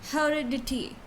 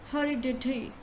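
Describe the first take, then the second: The two takes are said the same way.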